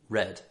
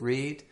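First: The vowel is short, like in 'red'. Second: The vowel is long, like in 'reed'. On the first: It is the past or past participle form. "The past and past participle" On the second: It is the present or infinitive form. "Present simple at the infinitive"

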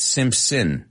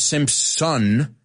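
First: The last syllable is reduced, like 'sin'. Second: The last syllable has a full 'son' vowel. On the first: The speaker calls it right. "it's in" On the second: The speaker calls it wrong. "no es Simpson"

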